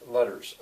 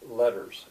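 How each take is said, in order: First: The middle consonant is a soft d-like flap. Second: The middle consonant is a soft d-like flap.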